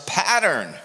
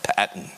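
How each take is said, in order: First: It is said in the speaker's own American accent. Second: It is said in an imitated Australian accent.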